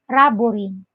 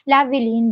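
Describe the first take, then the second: First: The name begins with an R sound. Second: The name begins with an L sound. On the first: "was changed to letter R" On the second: "the letter L in my name"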